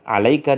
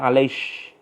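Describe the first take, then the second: First: The word ends with a k sound. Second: The word ends with a sh sound.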